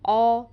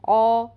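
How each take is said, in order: First: The vowel is rounded, like 'aw'. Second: The vowel is rounded, like 'aw'.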